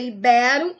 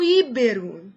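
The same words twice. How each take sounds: First: "ibero" stressed i-BE-ro; correct stress. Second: "íbero" stressed Í-be-ro; wrong stress. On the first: Teacher giving the correct form, stress on BE. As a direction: punch BE in "ibero". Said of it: "O certo é". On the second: Teacher warning against an error, stress on I. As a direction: punch the first I in "íbero". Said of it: "e não". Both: Shown as a demonstration.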